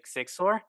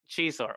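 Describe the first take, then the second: First: The name is read with Spanish pronunciation. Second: The name is read with English pronunciation. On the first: The speaker calls it wrong. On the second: The speaker calls it right.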